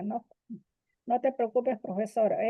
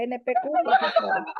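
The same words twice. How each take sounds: First: Said in the usual way. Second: Letras N P Q soltadas entre risas, voz mucho más aguda; deletreando entre risas. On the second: Shown as a demonstration. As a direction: leer "N P Q" como siglas, riéndose. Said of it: "sino N P Q". ("N P Q, profesora" deletreado con risa aguda)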